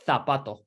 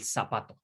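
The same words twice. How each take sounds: First: The word begins with a TH sound. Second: The word begins with an S sound. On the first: This is how it is said in Spain. "with like a th th th th th sound" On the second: This is how it is said outside Spain. "Everyone else will say el zapato with a s"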